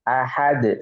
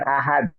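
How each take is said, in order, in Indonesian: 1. Huruf d terakhir berakhir dengan lepasan yang memantul. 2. Huruf d terakhir berakhir datar tanpa pantulan. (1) "Semuanya mantul" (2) "Bukan ahad"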